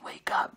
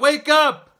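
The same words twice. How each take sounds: First: The words are said in a quiet whisper. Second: The words are shouted loudly. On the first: The message is delivered without conviction. The speaker calls it wrong. "You just whisper to him" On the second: The message is delivered with urgency. The speaker calls it right. "You gotta shout"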